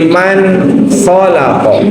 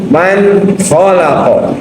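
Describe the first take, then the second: Both takes have the same delivery.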